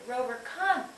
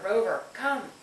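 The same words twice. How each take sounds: First: It is said in an excited voice. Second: It is said in an angry voice.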